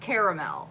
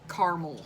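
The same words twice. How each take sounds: First: The word is said with three syllables. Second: The word is said with two syllables. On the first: The speaker calls it wrong. "It's not caramel" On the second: The speaker calls it right. "it's two syllables"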